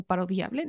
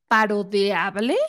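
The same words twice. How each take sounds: First: "parodiable" said softer, as "pa-ro-di-able"; pronounced with an I. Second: "parodiable" said slowly as "pa-ro-de-able"; pronounced with an E. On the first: Host offering the other form, "parodiable" said as "pa-ro-di-able". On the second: Host unsure of the word, "parodiable" slowly said as "parodeable". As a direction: stretch "parodiable", putting an E before "able": "parodeable". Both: Shown as a demonstration. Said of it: "No sé si esa es una palabra".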